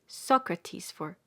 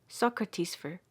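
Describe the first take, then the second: Both takes have the same delivery.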